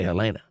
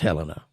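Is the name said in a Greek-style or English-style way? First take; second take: Greek-style; English-style. First: The name is said in a Greek-style pronunciation. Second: The name is said in the local English pronunciation. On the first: The speaker calls it wrong. "I'm still going to say Helena, because I got the Greek word in my head" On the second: The speaker calls it right. "I know it's Helena"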